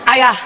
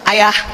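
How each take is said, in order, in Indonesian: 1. Nadanya sedikit lebih tinggi. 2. Panggilannya manis dan nadanya normal. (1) "suaranya naik setengah oktav" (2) "cantik kan ceritanya?"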